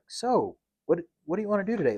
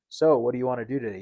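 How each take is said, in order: First: The question is asked with lively, engaged expression. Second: The question is asked flatly, without expression.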